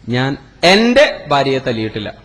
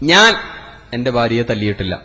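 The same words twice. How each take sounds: First: The second word carries the stress. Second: The first word carries the stress. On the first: A different wife was hit. "എന്റെ ഭാര്യയല്ല ഞാൻ തല്ലിയത്, വേറെ ഭാര്യയാണ്" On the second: Someone else hit her. "ഞാൻ തല്ലിയിട്ടില്ല. നാട്ടുകാർ കൈവച്ചിട്ടുണ്ടാവും"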